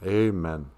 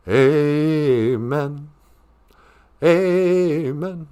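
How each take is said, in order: First: Said in the usual way. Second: Sung, AMEN drawn out, climbing higher. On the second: Shown as a demonstration. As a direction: chant AMEN with a long first vowel. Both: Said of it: "when you're singing".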